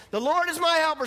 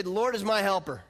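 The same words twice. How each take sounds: First: Higher and louder, bold declaration; confident, ringing call out; with confidence. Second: Said in the usual way. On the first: Shown as a demonstration. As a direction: proclaim it like you mean it. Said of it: "You're saying it with confidence". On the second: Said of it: "Turn to your neighbor, say".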